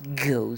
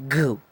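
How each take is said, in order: First: "go" as a Spanish speaker would first say it; Spanish-speaker's go. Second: "go" with hard G as in "ganso"; American English G. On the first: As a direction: show the non-American way of saying "go". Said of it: "entonces nosotros diríamos go". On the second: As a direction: model American "go" with a firm hard G. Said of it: "en la pronunciación inglesa, americana, es go, más bien como ganso". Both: Shown as a demonstration.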